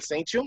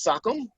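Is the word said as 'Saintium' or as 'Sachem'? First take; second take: Saintium; Sachem. First: The word sounds like 'Saintium'. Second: The word sounds like 'Sachem'. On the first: The speaker calls it wrong. "it's not Saintium" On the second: The speaker calls it right. "as it's pronounced, it's Sachem"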